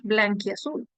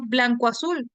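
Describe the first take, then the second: First: "blanquiazul" said as one word, the i joining blanco to azul; fused word blanquiazul. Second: Said in the usual way. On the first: Shown as a demonstration. Teacher to class, showing the fused compound: "blanquiazul" as one word. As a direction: run "blanquiazul" together as a single compound. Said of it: "No decimos blanco azul, decimos blanquiazul". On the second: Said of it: "No decimos blanco azul".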